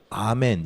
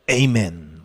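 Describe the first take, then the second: First: The first vowel is ah, as in Korean. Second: The first vowel is ay, as in English. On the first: The speaker calls it right. "원 발음에 훨씬 가까워요" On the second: The speaker calls it wrong. "외국물 먹은 사람들이"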